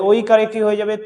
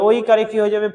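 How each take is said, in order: Both takes have the same delivery.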